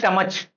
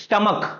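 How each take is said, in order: First: The word ends with a 'ch' sound. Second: The word ends with a 'k' sound. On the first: The speaker calls it wrong. "स्टमच तो एक गलत वे हो गया pronounce करने का" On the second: The speaker calls it right. "तो हम लोग इसको क्या बोलते हैं"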